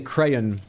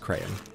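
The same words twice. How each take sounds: First: The word is said carefully, with clear syllables. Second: The word is said casually, almost as one syllable. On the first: "sometimes I say crayon more clearly" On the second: "My most natural way of saying it"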